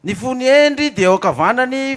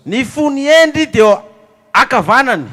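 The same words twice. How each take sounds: First: ENDRY stretched slow and loud; slow emphatic. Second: Endry stretched very slowly and loudly; slow emphatic repeat. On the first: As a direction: lean on the word endry, slowly. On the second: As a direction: drag out endry, louder and slower. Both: Shown as a demonstration. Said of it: "Listen close".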